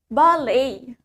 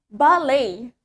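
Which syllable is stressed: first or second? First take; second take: second; second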